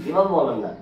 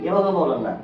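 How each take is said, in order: Both takes have the same delivery.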